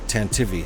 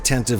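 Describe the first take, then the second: First: The name ends on an added vowel sound. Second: The name ends on a consonant sound. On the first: The speaker calls it right. "they said tantivy" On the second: The speaker calls it wrong. "don't say tantive four anymore"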